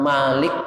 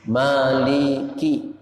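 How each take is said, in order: First: The word ends abruptly on the k sound. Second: The word ends with a short vowel after k. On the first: The speaker calls it wrong. "Jangan malik yaumiddin" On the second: The speaker calls it right. "Jangan malik tapi mali"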